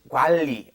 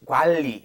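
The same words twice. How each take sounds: First: The middle consonant is pronounced as an l. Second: The middle consonant is pronounced as an l.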